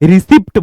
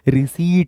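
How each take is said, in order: First: The P sound is pronounced. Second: The P sound is silent. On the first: The speaker calls it wrong. "रिसिप्ट बोलते हैं, वो रिसिप्ट नहीं" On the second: The speaker calls it right. "रिसीट है"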